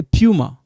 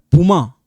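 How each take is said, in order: First: "puma" with a y-glide, PYOO-ma; English-style puma. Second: "puma" as POO-ma, no y-glide; puma without glide. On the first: Teacher recalling how we say it, "puma" as pyoo-ma. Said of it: "you know when we say puma". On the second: Teacher showing it depends how we pronounce it, "puma" as POO-ma. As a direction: say "puma" with a plain P straight into the vowel. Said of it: "It depends how we pronounce it". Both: Shown as a demonstration.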